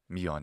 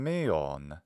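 First: It is said with the modern Greek pronunciation. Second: It is said with the ancient Greek pronunciation.

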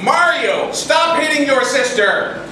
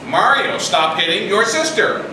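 First: It is said very loudly, close to shouting. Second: It is said somewhat louder than normal. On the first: The parent is close to losing their temper. "And so we say it a little louder" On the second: The parent is repeating the request more firmly. "So we say it again. Except a little louder"

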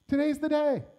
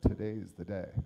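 First: It sounds hopeful and eager. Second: It sounds gloomy and resigned. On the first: The day is full of possibility. "the potential of the day is still before him" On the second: The day is something to dread. "he didn't say it with a"

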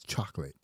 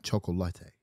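First: The word has an English pronunciation. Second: The word has a Spanish pronunciation. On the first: The speaker calls it right. "It's chocolate" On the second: The speaker calls it wrong. "not chocolate. ... the way you say chocolate in your language in Spanish"

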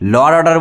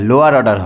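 First: The first word is squeezed into one syllable. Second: The first word is said with two syllables. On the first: The speaker calls it wrong. "লর order বলে কোনো জিনিস হয় না" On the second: The speaker calls it right. "লোয়ার order হয়"

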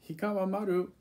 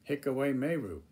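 First: It is said with a Japanese pronunciation. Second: It is said with an English-sounding pronunciation. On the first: The speaker calls it right. "should not be pronounced" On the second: The speaker calls it wrong. "That turns it into a totally different language"

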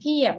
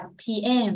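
First: The stress is on the first syllable. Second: The stress is on the second syllable. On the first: The speaker calls it wrong. "Ngày xưa thì mình không biết thì mình đọc là AM, PM" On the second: The speaker calls it right. "nhấn âm trọng số 2, mình đọc là PM, mình sẽ nhấn âm 2 nhiều hơn"

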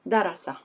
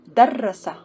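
First: The r sound in the middle is short. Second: The r sound in the middle is doubled. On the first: "Let's read the first one" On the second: "With Shadda"

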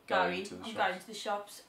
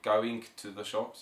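First: Going ends without a hard G sound. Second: Going ends with a hard G sound. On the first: The speaker calls it right. "you'd just say" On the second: The speaker calls it wrong. "you wouldn't say"

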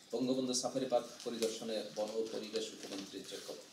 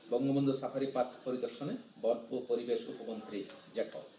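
The two takes are said the same way.

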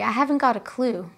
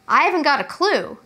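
First: The tone is softer and polite. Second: The tone is relaxed and casual. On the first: It is said respectfully in a more formal way. "To be more polite" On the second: It is said informally among friends. "Casually with your friends"

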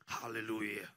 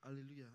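First: The voice is deep and booming. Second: The voice is at a normal pitch. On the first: "with the baritone voice" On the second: "I'm like"

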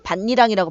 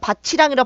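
First: The consonant after 바 keeps no ch sound. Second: The consonant after 바 becomes a ch sound. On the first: The speaker calls it right. "발음하죠" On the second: The speaker calls it wrong. "발음 안 해요"

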